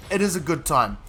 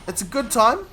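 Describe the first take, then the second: First: "is" stressed, then a falling end. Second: "It's a good time?" with a rise on "time"; questioning echo. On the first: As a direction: confirm it, leaning on the word "is". Affirms the echoed question. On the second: Echoes phrase as a question. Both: Real, not acted.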